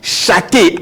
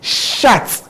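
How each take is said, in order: First: The word ends with an added ay vowel. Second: The word ends on a clear t sound. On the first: The speaker calls it wrong. "as people do mention. You can't do that" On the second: The speaker calls it right. "It goes to be shat"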